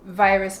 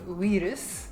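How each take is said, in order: First: The word begins with a V sound. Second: The word begins with a W sound. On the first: This is the English word. "straight from English because V is V" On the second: This is the Japanese loanword. "it's a we sound"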